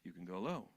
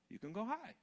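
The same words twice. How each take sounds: First: Soft, lowered voice; low pitch. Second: Soft voice lifting high; high pitch. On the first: Teacher showing vocal range, going low. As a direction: drop down low and gentle. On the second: Teacher showing vocal range, going high. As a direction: glide up high, lightly. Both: Shown as a demonstration.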